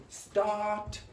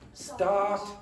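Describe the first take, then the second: First: The R is dropped and the vowel is long. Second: The same.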